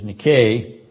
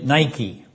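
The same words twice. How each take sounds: First: It is said with the Greek pronunciation. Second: It is said with the English pronunciation. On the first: The speaker calls it right. "but the Greek pronunciation is Nike" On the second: The speaker calls it wrong. "which we translate Nike, not the proper pronunciation of it"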